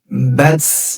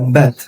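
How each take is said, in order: First: The final t ends in a strong s-hiss. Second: The final t has only a slight hiss. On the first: The speaker calls it wrong. "Bats begitu. Dan itu salah" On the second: The speaker calls it right. "Desisnya begitu"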